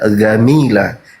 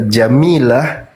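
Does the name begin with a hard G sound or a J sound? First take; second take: hard G; J sound. First: The name begins with a hard G sound. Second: The name begins with a J sound.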